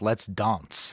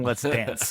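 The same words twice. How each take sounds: First: Dance is said with an odd, affected pronunciation. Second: Dance is said with an ordinary pronunciation. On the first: The speaker calls it wrong. "not called Let's Dance" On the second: The speaker calls it right. "It's fucking Let's Dance"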